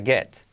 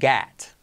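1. La vocal suena como una E pura. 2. La vocal se abre hacia una A. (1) "Si fuera ahí como E sería get" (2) "Pero es get"

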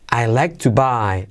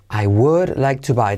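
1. Las palabras I would se contraen en I'd. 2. La palabra would se dice completa.

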